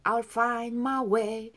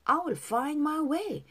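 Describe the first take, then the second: First: I will is reduced to a weak I'll. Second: I will is said as two full words.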